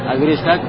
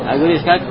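The two takes are said the same way.

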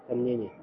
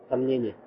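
The two takes are said the same way.

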